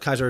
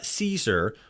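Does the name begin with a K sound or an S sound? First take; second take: K sound; S sound. First: The name begins with a hard K sound. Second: The name begins with a soft S sound. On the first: This is the classical Latin pronunciation. "Kaiser is pronounced with a K" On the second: This is how outsiders pronounce it. "outside faction pronouncing it like"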